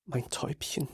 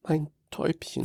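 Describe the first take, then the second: First: Much softer, breaking whisper; choked whisper. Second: Soft, choked whisper. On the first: Father at his comatose daughter's bed, barely audible whisper. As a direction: it hurts too much to say more. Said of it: "Mehr bringe ich nicht über meine schmerzverzerrten Lippen". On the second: Father at his comatose daughter's bed, choked whisper. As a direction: barely get the words out. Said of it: "flüstere ich mit erstickter Stimme". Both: Acted.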